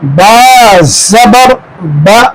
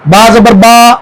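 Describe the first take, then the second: First: The final vowel is short and clipped. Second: The final vowel is stretched out long.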